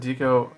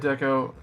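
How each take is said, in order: First: The first syllable differs from 'decoration'. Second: The first syllable sounds as in 'decoration'. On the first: "I've always said Deco. ... I just I say it weird" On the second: "You can say Deco. That's that that's correct. You know, decoration"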